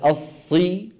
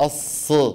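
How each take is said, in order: First: The vowel after the s is a full i. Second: The vowel after the s is dropped. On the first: The speaker calls it right. "الص بدل الصي" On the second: The speaker calls it wrong. "الص بدل الصي"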